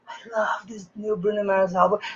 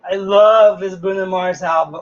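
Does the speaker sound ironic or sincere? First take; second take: sincere; ironic. First: It sounds sincere and enthusiastic. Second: It sounds ironic and mocking. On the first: The speaker really likes the album. "He's my favorite singer" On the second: The speaker actually dislikes the album. "you can be ironic"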